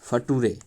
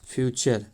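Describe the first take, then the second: First: It is said as 'fa-too-re'. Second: It is said as 'fyoo-cher'. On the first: The speaker calls it wrong. "इस तरह से नहीं" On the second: The speaker calls it right. "इसको अच्छे से समझे"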